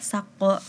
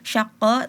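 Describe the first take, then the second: First: The word begins with an s sound. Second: The word begins with an sh sound. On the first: The speaker calls it wrong. "tadi menyebutnya saqqa" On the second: The speaker calls it right. "penyebutan huruf shin"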